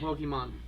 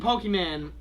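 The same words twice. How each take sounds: First: The word ends with a 'mon' sound. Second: The word ends with a 'man' sound. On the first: It is the usual name. "when you put the "an" with it" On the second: It sounds funnier. "so much funnier"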